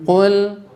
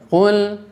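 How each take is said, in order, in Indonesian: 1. Konsonan pertama itu tebal dan berat. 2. Konsonan pertama itu tebal dan berat.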